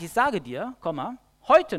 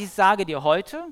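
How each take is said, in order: First: The pause comes before the word heute. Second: The pause comes after the word heute. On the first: The promise will be fulfilled this very day. "Oder ich setze das Komma davor" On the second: The promise is spoken today but fulfilled later. "ich sage dir heute, Komma, hier und jetzt"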